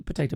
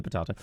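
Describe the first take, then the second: First: Potato said "po-TAY-to"; potato as "potayto", tossed off softly; contrasting pronunciation. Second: Potato said "po-TAH-to"; potato as "potahto", tossed off softly; contrasting pronunciation. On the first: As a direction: say potato with a long "ay" in the middle. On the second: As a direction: say potato with a broad "ah" in the middle. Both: Shown as a demonstration. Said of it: "you can't see aluminium right".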